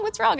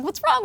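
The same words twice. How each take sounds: First: Much higher, worried repeat falling; imitating husband pressing again; falling urgent "What's wrong?"; alarmed husband. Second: Much higher, urgent worried question; imitating a panicked husband asking; rising alarmed "What's wrong?". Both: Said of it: "And Rob's like".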